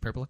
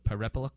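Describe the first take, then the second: First: The name is said fast, one syllable dropped. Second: The name is said slowly, every syllable clear.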